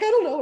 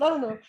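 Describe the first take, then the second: First: High, loud uncertain I don't know; editor's shrug. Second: My echo. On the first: Editor on the phone, loud playful uncertainty. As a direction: toss it off high and bright. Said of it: "she's like". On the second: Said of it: "And I said". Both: Retold or imitated.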